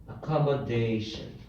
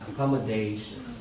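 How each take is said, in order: Both takes have the same delivery.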